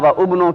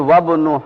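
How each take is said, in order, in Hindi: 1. दूसरे शब्द की शुरुआत एक अलग 'u' स्वर से होती है। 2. स्वर छोड़ दिया जाता है और दोनों शब्द आपस में मिल जाते हैं। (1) "की बजाय" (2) "पढ़ेंगे"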